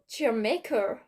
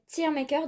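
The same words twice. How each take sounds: First: It is said with an English accent. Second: It is said with a French accent. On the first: "peut-être comme ça plutôt. un petit peu un petit accent d'anglais là" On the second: "Je sais pas si ça se prononce comme ça"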